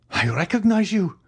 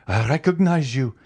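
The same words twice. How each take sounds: First: Much higher, strained repeat; heightened recognition. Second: Higher exclamation of recognition; first recognition. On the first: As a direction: push it up as the truth hits. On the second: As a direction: blurt it as it dawns. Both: A narrator's reading. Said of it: "exclaimed the king's attorney".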